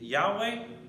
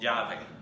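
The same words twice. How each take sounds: First: The middle consonant is a w sound. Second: The middle consonant is a v sound. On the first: This is the original form of the name. "nombre de" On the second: This is the form adapted into Spanish. "adaptamos ... como"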